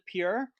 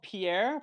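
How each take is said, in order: First: The name is said like the word pure. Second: The name is said as its spelling suggests. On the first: "everyone calls it Pure" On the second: "it's spelled Pierre"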